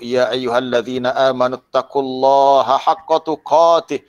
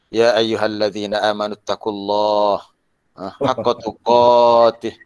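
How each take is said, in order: First: It is said loudly and forcefully. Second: It is said flatly with low energy. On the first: The warning makes a strong impression on listeners. The speaker calls it right. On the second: The listeners fall asleep in the mosque. The speaker calls it wrong.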